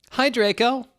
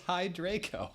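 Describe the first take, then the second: First: Very high, loud squeaky hello; exclaimed greeting. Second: A hint of a mopey, high, soft hello; depressed voice. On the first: Acted. Ebony greeting Draco with an exclamation point. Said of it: "There's an exclamation point". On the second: Ebony greeting Draco in a mock depressed voice. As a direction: say hi with mock gloom. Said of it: "in a depressed voice".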